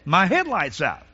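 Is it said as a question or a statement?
statement. The voice falls at the end like a statement. Plainly states the fact. "you stated the truth"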